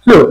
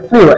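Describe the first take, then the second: First: Flew said as a plain "floo"; flew, a clean "floo" with no glide; correct pronunciation. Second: Flew said as "fliu", with an i glide; the common wrong "fliu" for flew; wrong pronunciation. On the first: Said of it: "কিন্তু এর উচ্চারণ হবে". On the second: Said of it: "আমরা এর উচ্চারণ করে থাকি". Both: Shown as a demonstration.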